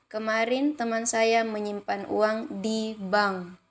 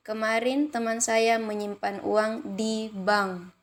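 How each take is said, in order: First: The stress falls on the words di bank. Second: The same.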